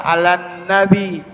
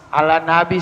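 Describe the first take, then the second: First: Slower "alan nabi" with a long held nn; correct tasydid. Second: "Alan nabi" with a short single n; wrong, no tasydid. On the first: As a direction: hum briefly on the n joining "alan nabi". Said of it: "Ada tasdid". ("alan nabi" dengan nun ditekan) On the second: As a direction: pass lightly over the n in "Alan nabi". ("Alan nabi" tanpa tasydid) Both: Shown as a demonstration.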